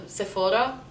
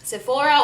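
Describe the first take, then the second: First: Sephora with a rolled R. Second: Sephora in an American accent. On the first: Showing viewers the Lebanese way, rolled R in Sephora. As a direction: roll the R in Sephora, Lebanese style. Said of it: "with a rolling R". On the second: Showing viewers the American way, American accent. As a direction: say it the American way, raised pitch. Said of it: "say it in an American accent". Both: Shown as a demonstration.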